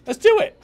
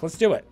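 First: Hyped, high-pitched rallying cry; excited. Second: Said in the usual way. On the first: Real, not acted. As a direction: psych yourself up, pitch jumping way up. Repeated, pumped up high.

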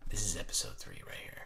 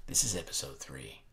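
First: Hushed whisper. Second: Said in the usual way. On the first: Real, not acted. Vlogger whispering to viewers over the exciting card deck. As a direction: whisper "This is episode three right here" softly. Repeats line, then whispers it.

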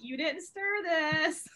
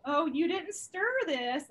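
First: 2 higher, very slow and drawn out, mock coy; 3 draw out every word like a sly hint; 4 imitating a coworker hinting about her drink, very slow and higher; 1 suggestive drawl. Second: 2 higher and louder, slow and drawn out, mock coy; 3 stretch out the words like a knowing hint; 4 imitating a coworker hinting about her drink, slow and higher; 1 suggestive drawl. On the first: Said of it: "she's like". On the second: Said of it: "this one girl was like".

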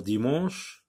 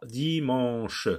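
First: Said in the usual way. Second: Slow "dimanche" as di, man, che; split into syllables. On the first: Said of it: "le mot dimanche en syllabes". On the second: Shown as a demonstration. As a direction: stretch each syllable of "dimanche". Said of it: "ça donne trois syllabes".

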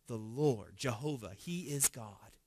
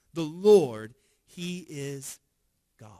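First: Soft, reverent declaration; hushed confession. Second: The crowd crying out the Lord's name, a loud proclamation; proclaiming. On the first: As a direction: speak it low like a bowed crowd. Crowd's reverent confession, read aloud. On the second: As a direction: LORD rings out loud, then settles. Crowd's confession repeated, rising. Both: Retold or imitated.

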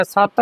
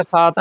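First: ਸਤ with short vowel and firm t, "satt"; tight pronunciation. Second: ਸਾਤ with loose long vowel, "saat"; loose misreading. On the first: Teacher showing learners the right word, tight pronunciation. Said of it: "ਇਹਨੂੰ ਕੱਸ ਕੇ ਪੜ੍ਹਨਾ ਹੈ". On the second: Teacher warning learners of the mistake, loose pronunciation. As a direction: say ਸਾਤ slackly. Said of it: "ਨਹੀਂ ਕਹਿਣਾ". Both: Shown as a demonstration.

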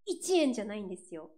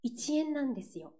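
First: 一円 with the standard pitch peak, then falling; standard intonation. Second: 一円 raised and held high, Fukuoka-style; Fukuoka intonation. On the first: Singer shows viewers the intonation Fukuoka does not use, standard-accented 一円. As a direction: say 一円 the Tokyo way, dropping after the peak. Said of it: "イントネーションの違いも結構面白い". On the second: Singer shows viewers the dialect intonation, 一円 pitched up. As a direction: lift 一円 the Kyushu way, keeping the pitch up. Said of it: "ちょっと上がるところが多いんですよね". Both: Shown as a demonstration.

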